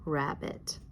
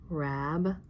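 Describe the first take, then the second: First: "Rabbit" as one joined word; syllables blended together. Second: "Rabbit" as rab, long pause, bit; split into syllables. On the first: Teacher putting "Rabbit" together for pupils, blended into one word. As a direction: say "Rabbit" smoothly, no gap between rab and bit. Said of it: "put it together and slide". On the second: Teacher sliding a finger under "Rabbit", syllable by syllable. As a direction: break "Rabbit" clearly into two separate syllables. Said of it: "slide it as we read it". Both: Shown as a demonstration.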